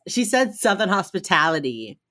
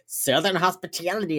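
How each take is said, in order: First: Said in the usual way. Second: Mock Southern vowels; bad Southern accent. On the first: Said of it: "And Emily goes". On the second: JJ making her cookie joke, bad Southern accent. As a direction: imitate JJ's badly faked Southern accent. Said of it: "She does the worst Southern accent".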